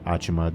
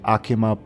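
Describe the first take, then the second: First: The name is said the English way. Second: The name is said the non-English way. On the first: "the English pronunciation is a bit different" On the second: "I said Akima"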